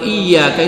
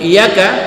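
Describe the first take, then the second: First: The y sound is doubled and held longer. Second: The y sound is single and short. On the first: "Kalau iyyaka itu ada tasdid di situ" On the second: "Tapi kalau iyyaka tidak ada tasdid"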